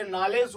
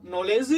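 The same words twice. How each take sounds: First: नॉलेज said with 'aa', as naalej; without the O sound. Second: नॉलेज said with a rounded 'o', as nolej; with the O sound. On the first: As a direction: open 'aa' in the first syllable of नॉलेज. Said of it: "अगर ये नहीं होता". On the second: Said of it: "इसमें ओ का sound होता है". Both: Shown as a demonstration.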